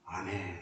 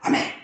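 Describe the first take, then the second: First: It is said softly and gently. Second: It is shouted at the top of the voice.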